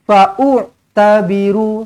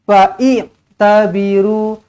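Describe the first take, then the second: First: An extra vowel u comes before tabiru. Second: An extra vowel i comes before tabiru.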